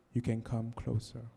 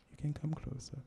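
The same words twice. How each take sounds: First: Said in the usual way. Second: Much softer, breathy hush; hushed invitation. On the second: Acted. Poet inviting the listener closer, in a hush. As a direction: draw them in with a near-whisper.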